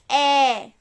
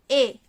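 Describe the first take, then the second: First: The vowel is said open, like 'eh'. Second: The vowel is said closed, like 'ay'. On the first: "Quando ele tem um acento agudo" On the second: "Quando ele tá assim"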